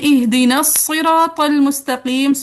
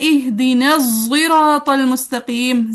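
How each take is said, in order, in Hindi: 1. "sirat" की शुरुआत एक emphatic, भारी s आवाज़ से होती है। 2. "sirat" की शुरुआत एक heavy, emphatic z आवाज़ से होती है। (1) "साद के साथ" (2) "जाय मुफख्खम हैवी जा के साथ"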